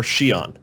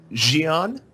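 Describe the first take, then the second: First: "Xi'an" begun with an unvoiced sh, shee-AHN; sh pronunciation. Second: "Xi'an" begun with a voiced zh, zhee-AHN; zh pronunciation. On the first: Host offers panel the other option, sh version. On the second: Host polls the panel on the name, zh version. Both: Shown as a demonstration. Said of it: "we've got the important question".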